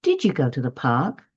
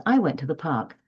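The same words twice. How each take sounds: First: "park" rises at the end, as a question; rising tune that finishes up on "park"; question intonation. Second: "park" falls at the end, a plain statement; falling tune that settles on "park"; statement intonation. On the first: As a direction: lift the voice on "park" to ask. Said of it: "the voice raises at the end". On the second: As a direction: let the voice drop on "park" to close the statement. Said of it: "the voice should fall at the end". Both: Shown as a demonstration.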